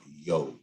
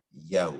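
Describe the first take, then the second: First: Yo with a plain rounded o; incorrect syllable. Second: Yow with an open a gliding to w; correct syllable. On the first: Teacher showing what to avoid, rounded Yo. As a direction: say Yo low, with no open a. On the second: Teacher contrasting sounds for a student, open gliding Yow. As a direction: say Yow low, as a full diphthong. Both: Shown as a demonstration. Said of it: "not Yo".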